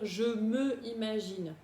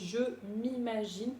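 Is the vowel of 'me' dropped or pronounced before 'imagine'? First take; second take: pronounced; dropped. First: The vowel of 'me' is pronounced separately. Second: The vowel of 'me' is dropped. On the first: The speaker calls it wrong. "c'est pour ne pas dire je me imagine. Bon, ça ne se dit pas" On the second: The speaker calls it right. "on dit je m'imagine puisque ça commence ici par une voyelle"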